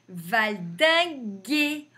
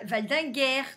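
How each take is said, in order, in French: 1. Le mot finit par un son 'ay' fermé. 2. Le mot finit par un son 'air' ouvert. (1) "Donc on dit" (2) "On ne dit pas"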